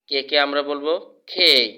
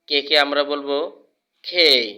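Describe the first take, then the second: Both takes have the same delivery.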